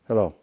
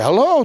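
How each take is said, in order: First: It sounds antagonistic and confrontational. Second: It sounds enthusiastic and strongly interested.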